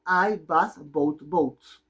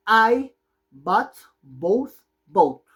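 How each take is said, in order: First: Very slow, calmer model sentence; slow repeat. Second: Very slow, every word laid out, louder; slow model sentence. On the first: Teacher repeating the example sentence very slowly. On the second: Teacher modeling the sentence very slowly for class. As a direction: spell it out slowly for learners. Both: Shown as a demonstration. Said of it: "¿Cómo se pronuncia esa oración?".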